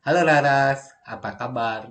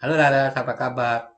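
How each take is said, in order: First: Halo Laras said as a greeting, then apa kabar; Indonesian translation read out. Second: Halo Laras, apa kabar read plainly; second reading of the translation; Indonesian translation again. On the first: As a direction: model the translated question. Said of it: "Begitu ya kan. Ani bertanya seperti itu". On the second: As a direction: repeat the translated line. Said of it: "Ani bertanya seperti itu kan". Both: Shown as a demonstration.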